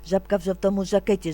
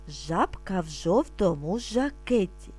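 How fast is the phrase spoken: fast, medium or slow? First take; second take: fast; slow. First: It is spoken very quickly. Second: It is spoken slowly and calmly. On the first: "А тепер дуже швидко" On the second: "Спочатку ми будемо вимовляти спокійно, не спіша"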